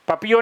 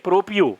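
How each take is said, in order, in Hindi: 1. पहला अक्षर 'pa' की तरह बोला जाता है। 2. पहला अक्षर 'pro' की तरह बोला जाता है।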